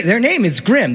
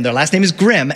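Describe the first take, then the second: First: "name" lifted and leaned on; stress on name. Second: "Grimm" given the weight, falling at the end; stress on Grimm. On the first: Telling the audience the brothers' name, with "name" stressed. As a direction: punch "name" in "their name is Grimm". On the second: Pun on the brothers' name Grimm, stressing "Grimm". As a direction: land hard on "Grimm". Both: Shown as a demonstration. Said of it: "the original versions are also Grimm".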